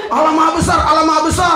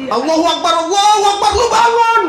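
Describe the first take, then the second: First: Mock call to prayer. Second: High loud shout of Allahu Akbar; loud playful azan shout; mock call to prayer. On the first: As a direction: imitate the shouting from the mosque. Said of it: "ada yang teriak-teriak". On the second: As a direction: call out like the mosque waking you. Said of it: "masjid itu teriak-teriak".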